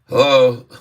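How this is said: It is said with a frown, sounding flat. "Try to say hello with a frown on your face"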